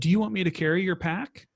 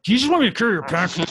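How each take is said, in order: First: It is asked in a calm, neutral tone. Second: It is asked in a frustrated, exasperated tone.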